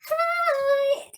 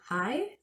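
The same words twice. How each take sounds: First: It is said with enthusiastic energy. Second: It is said with puzzled, questioning uncertainty.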